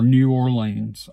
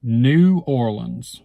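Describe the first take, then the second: First: New Orleans ending in a long "leens"; alternative pronunciation. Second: New Orleans with a short unstressed ending, OR-lunz; first of two pronunciations. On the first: Speaker showing the other way they say it, New or-LEENS. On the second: Speaker showing their usual way of saying the city, New OR-lunz. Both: Shown as a demonstration. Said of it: "I say both".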